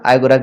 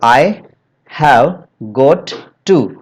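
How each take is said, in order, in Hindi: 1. शब्द छोटे होकर आपस में मिल जाते हैं। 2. हर शब्द पूरा और अलग-अलग बोला जाता है।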